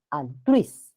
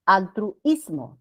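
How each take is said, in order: First: Altruis as al-TRUIS, ui glided together; one-syllable diphthong. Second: Altruismo broken as al-tru-IS-mo, u and i apart; wrong hiatus. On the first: Teacher corrects the split, Altruis with ui in one syllable. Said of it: "Es uno solo". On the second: Teacher shows the wrong split, altruismo slowly as al-tru-IS-mo. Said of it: "No es altruismo". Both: Shown as a demonstration.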